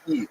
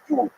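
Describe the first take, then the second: First: It begins directly with the vowel, no Y glide. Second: It has a Y glide and an oo vowel. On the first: The speaker is from the Eastern Ukrainian dialect area. "if you lived in Eastern Ukraine, you'd say Eid, like Yiddish, like just without the Y" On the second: The speaker is from the Western German dialect area. "If you uh, lived in Western Germany, you would say Jud"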